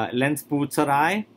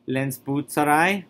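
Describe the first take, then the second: The two takes are said the same way.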